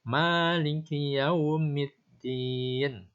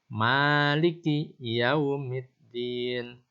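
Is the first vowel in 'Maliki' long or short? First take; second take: long; long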